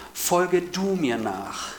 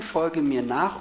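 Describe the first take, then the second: First: "Folge du mir nach" slow, each word weighted; more emphatic. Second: Said in the usual way. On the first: Shown as a demonstration. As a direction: stress "du" and "Folge", drawn out. (betont und langsam: "Folge du mir nach") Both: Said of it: "noch betonter".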